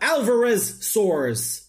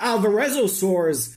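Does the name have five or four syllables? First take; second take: four; five. First: No vowel comes between 'rez' and 'saurs'. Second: An extra vowel comes before the final 'saurs'. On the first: The speaker calls it right. "but Alvarezsaurs" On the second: The speaker calls it wrong. "not Alvarezosaurs"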